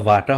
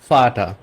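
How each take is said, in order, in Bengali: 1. শব্দটি v ধ্বনি দিয়ে শুরু হয়। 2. শব্দটি f ধ্বনি দিয়ে শুরু হয়। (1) "এটা বাটা বা ভাটা হবে না" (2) "এটা ফাটা"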